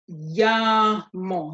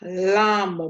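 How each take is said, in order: First: The word begins with a Y sound. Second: The word begins with an L sound. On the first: The speaker calls it right. "it sounds like a Y, like your English Y" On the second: The speaker calls it wrong. "not lamo"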